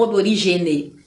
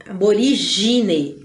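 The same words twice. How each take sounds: First: "aborigene" low, with GE for GI; wrong pronunciation. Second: "aborigine" slowly, ending GI-ne; correct pronunciation. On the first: Teacher shows the form to avoid, wrong pronunciation. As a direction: put an E after the G in "aborigene". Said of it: "não aborigene". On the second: Teacher models aqui é gine, correct pronunciation. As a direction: stretch the GI in "aborigine". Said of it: "aqui é gine". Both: Shown as a demonstration.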